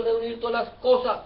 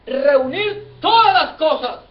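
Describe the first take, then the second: First: Said in the usual way. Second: "todas" punched high and loud, drawn out; preacher hammering home "todas"; emphatic repetition. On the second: Real, not acted. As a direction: hit "todas" hard and slow the whole phrase. Preacher repeats verse phrase for emphasis.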